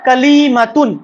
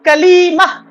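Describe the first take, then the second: First: The word ends with a pronounced t and -un. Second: The word ends softly with an h-like sound. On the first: The word carries its full ending without stopping. "ता को पढ़ देंगे" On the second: The reader stops on the word. "जब इसके ऊपर वक्फ करेंगे तो इस ता को प्रोनाउंस नहीं करेंगे, बल्कि हा की प्रोनाउंस निकलेगी"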